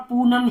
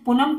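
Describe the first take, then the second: First: "पूनम" with a long oo, poo-nam; "पूनम" read with a full long ऊ; correct long vowel. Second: "पूनम" with a short u, like पुनम; "पूनम" said wrongly as pu-nam; misread short vowel. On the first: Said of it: "पूनम ही पढ़ेगा". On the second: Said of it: "पूनम कोई नहीं पढ़ेगा". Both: Shown as a demonstration.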